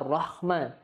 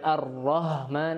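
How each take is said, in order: First: The h is a rough, scraping kh sound. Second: The h is a light, ordinary h sound.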